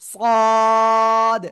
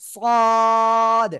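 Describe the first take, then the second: First: The letter is said with a heavy, thick sound. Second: The same.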